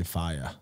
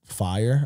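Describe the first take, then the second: First: Boston fire: "fiyah", no r at the end; Boston accent. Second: Said in the usual way. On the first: Shown as a demonstration. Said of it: "I used to get called out for". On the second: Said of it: "the big one that I used to get called out for".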